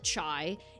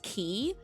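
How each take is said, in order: First: The word is said like 'chai', rhyming with 'sky'. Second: The word is said like 'key', rhyming with 'see'. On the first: It avoids confusion with the other weapons' name. "I am gonna call it Chai" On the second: It is the pronunciation used in the series. "In the series, they pronounce it as Key"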